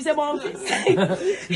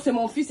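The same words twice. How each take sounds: First: Very slow, laughing reveal; mother triumphantly revealing her son; proud reveal. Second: Said in the usual way. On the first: Retold or imitated. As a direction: savour the punchline. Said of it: "Après, elle a dit". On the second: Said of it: "elle a parlé d'abord".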